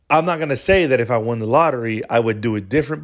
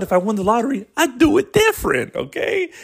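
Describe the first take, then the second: First: Said in the usual way. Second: Much higher squeaky mocking tone. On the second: Shown as a demonstration. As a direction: jump way up in pitch. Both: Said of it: "But hey, guess what?".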